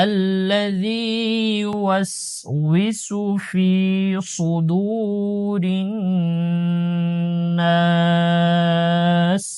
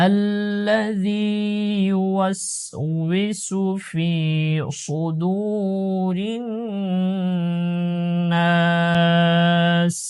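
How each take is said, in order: Both takes have the same delivery.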